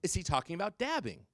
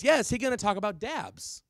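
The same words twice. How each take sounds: First: Imitated kid spelling out the question; slower repeat. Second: High, loud, quick blurt; rapid-fire imitation of a kid calling out; fast kid's question. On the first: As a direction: repeat it more slowly for the teacher. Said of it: "Speak slower". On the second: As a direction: fire off the question like an eager pupil. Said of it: "said it that fast".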